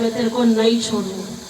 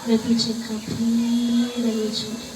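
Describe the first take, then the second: First: It sounds stern and threatening. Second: It sounds gentle and comforting.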